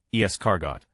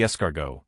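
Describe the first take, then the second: First: "Escargot." ending in "got", not "go"; pun on got. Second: Said in the usual way. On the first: Shown as a demonstration. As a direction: say "Escargot." with a hard final "got". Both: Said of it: "Pronounce the last syllable as got not go".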